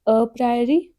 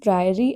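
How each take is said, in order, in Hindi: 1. शब्द 'a' ध्वनि से शुरू होता है। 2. शब्द सीधे 'pr' से शुरू होता है, बीच में 'a' नहीं है। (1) "मैंने जानबूझ के गलत बोला है।" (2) "यहाँ पे दोनों केसेस में जनरली ए साइलेंट होता है।"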